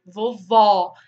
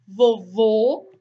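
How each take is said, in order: First: Vovó ending in an open ó. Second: Vovô ending in a closed ô, slowly. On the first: Teacher contrasting the open O in vovó. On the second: Teacher contrasting the closed O in vovô. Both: Shown as a demonstration. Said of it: "Então, muda o acento".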